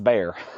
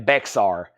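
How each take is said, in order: First: The x is silent, like bear. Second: The x is sounded in the word. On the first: The speaker calls it right. "that's pronounced bear" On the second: The speaker calls it wrong. "I pronounce it the way I would sound out letters"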